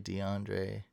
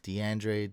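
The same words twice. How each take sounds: First: "DeAndre" with an open 'ahn' vowel, softly tried out; name variant. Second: "DeAndre" with a front 'an' vowel, softly tried out; name variant. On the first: Streamer unsure of a viewer's name, "DeAndre" said dee-AHN-dray. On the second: Streamer unsure of a viewer's name, "DeAndre" said dee-AN-dray. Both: Shown as a demonstration. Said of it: "I don't know".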